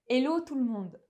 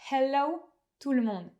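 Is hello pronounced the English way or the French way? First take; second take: French; English. First: Hello is said with a French pronunciation. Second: Hello is said with an English pronunciation. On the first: This is how people in France normally say it. The speaker calls it right. "c'est comme ça qu'on prononce hello en France" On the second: People in France would find it odd. The speaker calls it wrong. "et pas"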